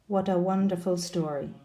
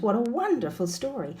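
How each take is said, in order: First: "What a wonderful story" in a level monotone; flat, uninterested tone. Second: "What a wonderful story" with WON lifted high, then falling; excited rise-fall intonation. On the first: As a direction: sound sarcastically unmoved on What a wonderful story. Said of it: "flat or falling tone". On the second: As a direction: gush on wonderful with exaggerated stress. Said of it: "Can you hear the difference?". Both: Shown as a demonstration.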